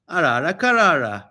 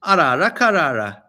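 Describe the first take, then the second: First: Repeated mock spell. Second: Arara karara intoned louder like a wizard's charm; hammed-up magic words; mock spell casting. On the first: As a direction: repeat the charm Arara karara. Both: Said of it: "you only need two words".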